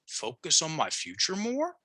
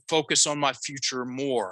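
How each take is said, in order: First: The voice rises at the end. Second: The voice falls at the end.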